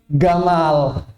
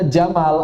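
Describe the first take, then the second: First: It starts with a hard g, Egyptian style. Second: It starts with a j sound, standard Arabic.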